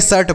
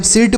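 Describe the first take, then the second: First: शर्ट with an "uh" vowel before r; short "uh" sound in शर्ट; correct shirt pronunciation. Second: सिर्ट with an "i" vowel; wrong shirt pronunciation. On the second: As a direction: mispronounce it as सिर्ट, short i before r. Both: Shown as a demonstration. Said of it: "शर्ट पढ़ते हैं ना".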